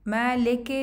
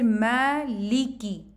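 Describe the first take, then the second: First: The vowel after the L is an 'eh' sound. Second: The vowel after the L is a long 'ee'. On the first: The speaker calls it wrong. "मैं लेके नहीं पढ़ना, इसको ए ए साउंड के साथ नहीं पढ़ना" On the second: The speaker calls it right. "ई ई आवाज़ के साथ पढ़ना है"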